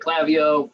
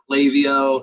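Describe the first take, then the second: First: It is said with a regional Pacific Northwest pronunciation. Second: It is said with the more common pronunciation. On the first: "I say Klaviyo from the Pacific Northwest. Apparently we talk funny" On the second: "A lot of people pronounce it Klaviyo"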